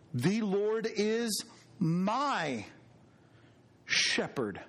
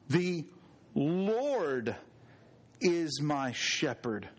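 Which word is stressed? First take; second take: my; Lord. First: The word my carries the main stress. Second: The word Lord carries the main stress. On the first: He is personally the speaker's own shepherd. "Doesn't that tell us something about God being personal?" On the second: It is the Lord who is the shepherd. "this is the Lord"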